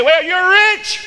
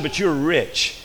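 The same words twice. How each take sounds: First: High, loud, drawn-up cry; hammed-up high exclamation; mock exclamation. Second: Said in the usual way. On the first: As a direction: proclaim it in a loud, high pitch. Mocking what a man can say.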